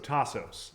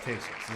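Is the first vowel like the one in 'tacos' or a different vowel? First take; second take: like tacos; different. First: The first vowel matches the one in tacos. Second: The first vowel differs from the one in tacos. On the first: The speaker calls it right. "Tacos, so Tassos" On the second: The speaker calls it wrong. "I always want to say Tesos, but there's no way it's Tesos"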